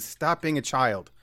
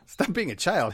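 First: It is said in an angry, scolding tone. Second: It is said in a light, playful tone.

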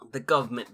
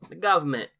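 First: It is said in the speaker's ordinary accent. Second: It is said in a put-on cockney accent.

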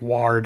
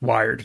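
First: The vowel sounds like 'aw'. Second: The vowel sounds like 'eye'. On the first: The speaker calls it wrong. "we were pronouncing it incorrectly" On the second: The speaker calls it right. "his name is pronounced Wired now"

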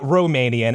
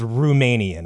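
First: The first syllable sounds like 'roh'. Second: The first syllable sounds like 'rum'. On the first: It refers to the ethnicity. The speaker calls it wrong. "It's not Romanian as in the ethnicity" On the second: It refers to something named after rum. The speaker calls it right. "Imagine that word with a U instead of an O"

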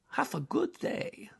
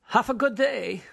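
First: It is said in a put-on Dracula voice. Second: It is said in a plain, normal voice.

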